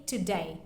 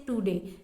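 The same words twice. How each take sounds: First: "today" said as "to-DIE"; native-style accent. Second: Said in the usual way. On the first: Shown as a demonstration. Teacher showing learners a native accent, "today" pronounced "tuh-DIE". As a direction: say "today" with the last vowel opened to "eye". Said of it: "actual accent of their native". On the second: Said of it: "Don't say today".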